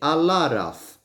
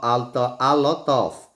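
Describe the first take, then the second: First: The t is linked as a light r sound. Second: The t is a clear, separate t sound. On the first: "a gente junta. E fala-se como, aqui no caso do T, um pequeno R" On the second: "no livro está escrito a lot of"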